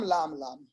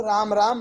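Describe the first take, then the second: First: "लाम लाम" with L replacing R; "लाम लाम", each R softened into L; lisping child's L. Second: Said in the usual way. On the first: Shown as a demonstration. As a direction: demonstrate a lisping child saying "लाम" for "राम". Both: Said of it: "रा को ला बोल देते हैं".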